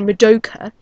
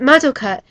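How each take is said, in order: First: The stress is not on the first syllables. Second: The stress is on the first syllables. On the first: This is the English way of saying the name. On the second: This is the Japanese way of saying the name.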